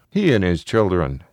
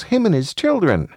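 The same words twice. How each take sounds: First: Fatherly correction in a natural adult pitch; father correcting. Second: Put-on high-pitched small boy; high child voice; little child. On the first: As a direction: gently correct a child's grammar. Father echoes and corrects child. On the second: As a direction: say it like a young child. Child voiced, father echoes it. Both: A narrator's reading.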